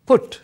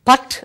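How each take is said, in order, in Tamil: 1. இந்த உயிரெழுத்து 'foot' என்ற சொல்லில் உள்ள 'oo' போல ஒலிக்கிறது. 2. இந்த உயிரெழுத்து 'but' என்ற சொல்லில் உள்ள 'uh' போல ஒலிக்கிறது. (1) "ஆனால் புட் என்று தான் நாங்கள் அதை சொல்லுவோம்" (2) "பட் என்று வந்திருக்க வேணும் உண்மையில்"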